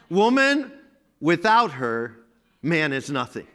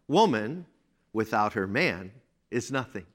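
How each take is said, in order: First: There is a pause before the word man. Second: There is a pause after the word man.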